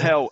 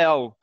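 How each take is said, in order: First: The word begins with an H sound. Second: The word begins without an H sound. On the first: "Não falam hell" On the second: "é el"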